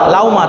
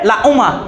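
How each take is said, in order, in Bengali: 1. হামজা নরমভাবে উচ্চারিত হয়, হামজা ও w-এর মাঝামাঝি। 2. হামজা স্পষ্ট থামের মতো পুরোপুরি উচ্চারিত হয়। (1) "ওয়াও এবং পেশের কি বলতেছি মাঝামাঝি" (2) "হামজার উচ্চারণ করলে"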